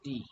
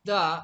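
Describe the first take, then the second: First: The vowel is a long 'ee' sound. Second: The vowel is a short 'uh' sound. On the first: The next word starts with a vowel. "যখন দি হয় তখন vowel দিয়ে শুরু হয়" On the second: The next word starts with a consonant. "যখন দা হবে তখন হচ্ছে শব্দটা কনসোনেন্ট দিয়ে শুরু হয়"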